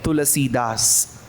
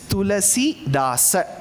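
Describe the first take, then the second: First: The name ends without a final vowel. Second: The name ends with a pronounced final vowel. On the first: It follows Hindi usage. "If you are conscious of speaking in Hindi, yes, you are right" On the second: It follows Sanskrit usage. "you will have to pronounce the last aksharam"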